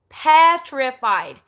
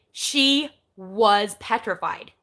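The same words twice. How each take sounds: First: "Petrified." louder and drawn out slowly; emphatic repeat. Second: Said in the usual way. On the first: Shown as a demonstration. Echoing how scared Lynn was, slow and louder. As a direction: lean hard on "Petrified." for weight.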